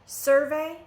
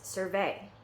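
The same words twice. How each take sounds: First: The stress is on the first syllable. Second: The stress is on the second syllable. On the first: It is used as a noun. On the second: It is used as a verb.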